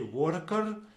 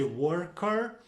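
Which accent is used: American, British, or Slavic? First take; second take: Slavic; American. First: The r sounds are strongly rolled. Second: The r sounds are clearly and strongly pronounced. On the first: "we would uh, really roll those R's" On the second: "in America we like to uh, make those R's heard"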